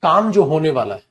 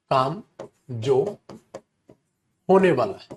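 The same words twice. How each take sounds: First: Said in the usual way. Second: Word by word with long pauses; spaced-out teacher dictation; dictation pace. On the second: Shown as a demonstration. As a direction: dictate it in separate chunks for students to write.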